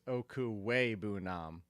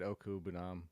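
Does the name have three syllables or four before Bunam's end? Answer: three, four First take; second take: four; three. First: The name includes a middle syllable "way". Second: The name leaves out the middle syllable "way". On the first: The speaker calls it right. "because it's Oku Way Bunam" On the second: The speaker calls it wrong. "I said Oku Bunam. I left out the way"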